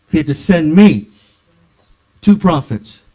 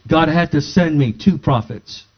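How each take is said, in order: First: Me and two punched louder; stress on ME and TWO. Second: Said in the usual way. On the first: Shown as a demonstration. Preacher repeating his point, louder on me and two. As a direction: hit me and two hard. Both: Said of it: "I'll share it again".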